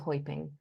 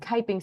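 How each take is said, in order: First: The name is said with the Cantonese-style pronunciation. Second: The name is said with the Mandarin pronunciation. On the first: This is how the emigrants themselves said it. "they would have said their birthplace in that accent" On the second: This is the official name used on maps. "Google Maps uses Mandarin Chinese"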